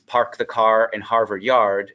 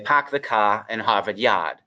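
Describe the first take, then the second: First: The R sounds are clearly pronounced. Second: The R sounds are dropped. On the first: "with the cl- classic American R's" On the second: "the Boston accent is typically non-rhotic"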